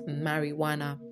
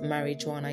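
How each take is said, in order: First: The middle consonant is a 'w' sound. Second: The middle consonant is a 'j' sound. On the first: The speaker calls it right. "it's pronounced marijuana" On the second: The speaker calls it wrong. "so it's not pronounced marijuana"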